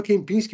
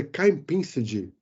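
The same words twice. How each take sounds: First: Kempinski said the Western way, a bit higher; my pronunciation. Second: Kempinski said slowly the Chinese way; Chinese pronunciation. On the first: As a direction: say Kempinski as a foreigner would. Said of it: "E eu falava Kempinski". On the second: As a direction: drag out Kempinski as locals say it. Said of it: "que era o nome do hotel". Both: Shown as a demonstration.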